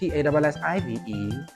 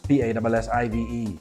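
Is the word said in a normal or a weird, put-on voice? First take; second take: weird; normal. First: It is said in a weird, put-on voice. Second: It is said in his normal voice. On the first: "I decided to do it with a weird voice" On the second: "just like that"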